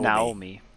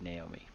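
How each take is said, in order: First: The name is said with a Japanese pronunciation. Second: The name is said with an American pronunciation. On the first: "I'm just saying it how you know they would say it" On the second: "the American reading of that would be Naomi"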